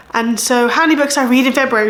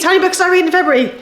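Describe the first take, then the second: First: Said in the usual way. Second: Higher, fast, game-show suspense on "many"; drum roll build-up. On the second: Shown as a demonstration. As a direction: hype it up like a quiz host announcing the result. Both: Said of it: "Drum roll, please".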